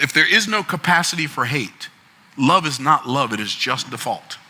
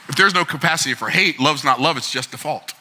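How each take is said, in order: First: It is said slowly. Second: It is said fast.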